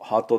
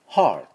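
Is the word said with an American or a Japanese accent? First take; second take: Japanese; American. First: It is said with Japanese katakana sounds, no R. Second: It is said with an American breathy vowel and R. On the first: The speaker calls it wrong. "ハートではね、どうやらネイティブには通じにくいようですね" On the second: The speaker calls it right. "これHeart、Heart なんですね"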